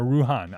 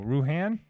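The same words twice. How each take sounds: First: Ruhan with an open "ah" in the second syllable; chosen pronunciation. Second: Ruhan with the second vowel as in "hand"; alternate pronunciation. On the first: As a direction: say Ruhan as "roo-HAHN". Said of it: "I'm going with Ruhan". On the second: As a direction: say Ruhan as "roo-HAN", short a. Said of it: "people pronounce my name different". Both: Shown as a demonstration.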